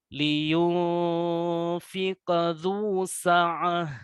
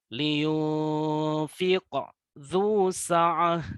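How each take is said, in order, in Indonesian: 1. Huruf qalqalah langsung menyambung ke huruf berikutnya. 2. Ada jeda setelah huruf qalqalah. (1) "Jadi dibacakan dengan" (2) "itu ada jeda antara qaf yang tersukun dengan huruf dza"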